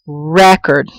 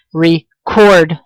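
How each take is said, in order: First: "record" set apart, stressed REC-ord; stress on first syllable. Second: "record" stretched out, stressed re-CORD; stress on second syllable. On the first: Teacher showing the noun's accent, "record" stressed on REC. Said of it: "I'm putting stress here". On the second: Teacher showing the verb's accent, "record" stressed on CORD. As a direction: punch the last syllable of "record". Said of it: "I'm putting the stress over here". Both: Shown as a demonstration.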